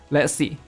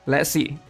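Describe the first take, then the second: No difference in how they are said.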